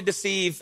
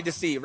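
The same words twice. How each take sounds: First: "deceive" sung out with a dark, menacing lilt; sinister deceive. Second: "deceive" dropped low and soft, harmless and light; playful deceive. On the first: Magician mocking the villainous sense of deceive. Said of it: "less like steal, kill, and destroy". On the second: Magician giving deceive its harmless surprise-party sense. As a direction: say "deceive" like a friendly party prank. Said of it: "more like surprise party". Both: Shown as a demonstration.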